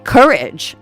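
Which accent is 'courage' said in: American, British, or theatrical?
American. Everyday American, with an r-colored vowel. "I wouldn't say courage"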